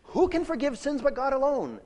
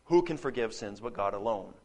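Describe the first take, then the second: First: Much higher, earnest asking voice; sincere question. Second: Lower, knowing rhetorical tone; rhetorical question. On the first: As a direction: ask as if really wanting an answer. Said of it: "they're not saying". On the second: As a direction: ask it as if everyone knows. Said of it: "a rhetorical question". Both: Shown as a demonstration.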